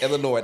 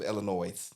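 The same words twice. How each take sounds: First: The final S sound is silent. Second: The final S sound is pronounced. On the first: The speaker calls it right. "The S is silent" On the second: The speaker calls it wrong. "That is not how you say it"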